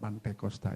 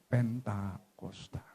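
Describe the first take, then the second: First: The first syllable sounds like 'pan'. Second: The first syllable sounds like 'pen'. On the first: The speaker calls it wrong. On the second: The speaker calls it right.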